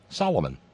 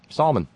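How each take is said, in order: First: The name is said with three syllables. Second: The name is said with two syllables. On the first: "Or as Tangerine Tiberius referred to him" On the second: "had the same first name as the Royal Majestic Noble Gracious Serene Highness of Saudi Arabia"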